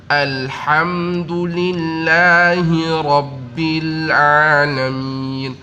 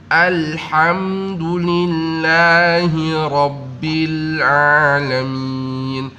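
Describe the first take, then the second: The two takes are said the same way.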